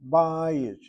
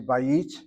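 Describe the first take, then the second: First: The stress is on the first syllable. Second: The stress is on the second syllable. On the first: The speaker calls it right. "We emphasize that first syllable" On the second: The speaker calls it wrong. "we don't say"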